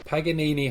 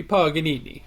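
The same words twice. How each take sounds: First: "Paganini" with a short flat a, as in "pag"; Pag pronunciation. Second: "Paganini" with an open "pah" first syllable; Pah pronunciation. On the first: Questioned take on the film title, "Paganini" starting with "Pag". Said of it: "I don't think they say Pag". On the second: Correcting a co-host's film title, "Paganini" starting with "pah". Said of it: "I think it'll be Paganini". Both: Shown as a demonstration.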